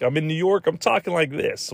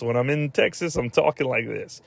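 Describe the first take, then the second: First: Higher-pitched, badly faked New York accent. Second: Badly faked Texas Southern accent. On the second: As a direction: put on a joke Texas accent. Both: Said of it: "they pull the Southern accent when they need to".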